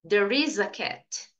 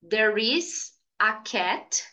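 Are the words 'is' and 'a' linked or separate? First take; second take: linked; separate. First: The final consonant of 'is' links into 'a'. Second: Each word is pronounced separately, without linking. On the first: The speaker calls it right. "diga There is a cat. Olha que diferente" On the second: The speaker calls it wrong. "em vez de você falar"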